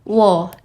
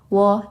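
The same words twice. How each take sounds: First: The pitch drops sharply and abruptly. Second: The syllable is light with no marked pitch. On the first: "Dia itu lebih lebih lebih nentak nadanya" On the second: "Dia itu lebih gak ada nada gitu"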